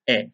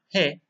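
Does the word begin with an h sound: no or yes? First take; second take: no; yes. First: It begins directly with the vowel. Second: It begins with an h sound. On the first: The speaker calls it right. "the pronunciation is e" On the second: The speaker calls it wrong. "not he"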